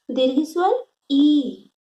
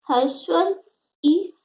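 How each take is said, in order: First: Slow, "ई" held long as ee; long vowel ee. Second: "ई" cut quick and short; short vowel i. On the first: Teacher contrasts for pupils, "ई" stretched long and slow. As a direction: draw "ई" out to double length. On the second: Teacher shows pupils the short vowel, "ई" kept brief. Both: Shown as a demonstration.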